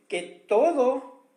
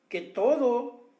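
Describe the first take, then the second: No difference in how they are said.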